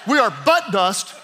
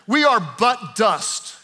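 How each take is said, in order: First: The stress falls on the word but. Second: The stress falls on the word dust. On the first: It sounds like a rude joke about backsides. The speaker calls it wrong. "if you say it this way, ... it totally changes the meaning" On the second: We are merely dust. The speaker calls it right. "And you have to say it right"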